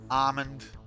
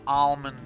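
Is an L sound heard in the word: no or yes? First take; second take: no; yes. First: The word is said without an L sound. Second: The word is said with an L sound. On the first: The speaker calls it right. "I can pronounce almond correctly" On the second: The speaker calls it wrong. "It's not almond"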